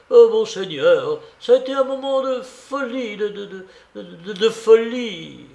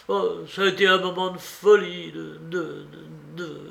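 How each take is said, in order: First: High, louder, agitated stammer; stupefied stammering. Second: Stammering, higher, trailing away on the last word; deeply moved stammer. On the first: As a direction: stutter helplessly on the little word before the last. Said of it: "il continuait de bégayer". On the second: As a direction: stumble and lose the words, shaken. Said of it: "balbutia Jules, profondément remué". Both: A narrator's reading.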